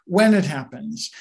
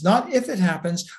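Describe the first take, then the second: First: "when" stressed as the correction. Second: "if" picked out to be rejected; stress on IF. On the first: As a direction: lean on "when", then let the rest fall. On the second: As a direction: lean on "if" in "not if it happens". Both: Real, not acted.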